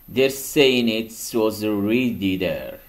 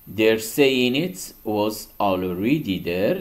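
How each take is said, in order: First: The word 'already' loses its first vowel. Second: The word 'already' keeps its first vowel.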